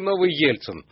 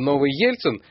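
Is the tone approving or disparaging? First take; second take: disparaging; approving. First: It is said in a disparaging, sceptical tone. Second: It is said in an approving, hopeful tone. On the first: Being a new Yeltsin is a bad thing. "с разной интонацией сказано это" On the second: Being a new Yeltsin is a good thing. "с разной интонацией сказано это"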